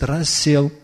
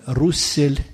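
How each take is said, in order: First: The first vowel is an 'ah' sound. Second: The first vowel is an 'oo' sound. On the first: The speaker calls it right. "но не его произносит, Рассел" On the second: The speaker calls it wrong. "некто Руссель, но не его произносит"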